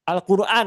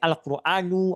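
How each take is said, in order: First: The word ends on n with no vowel. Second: The word ends with a short u vowel. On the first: The speaker calls it wrong. "suka men mensukunkan membaca isim" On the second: The speaker calls it right. "Tapi bisa jadi Al-Quranu"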